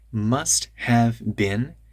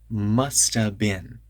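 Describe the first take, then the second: First: Each word is said fully and carefully. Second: The words run together quickly and reduced.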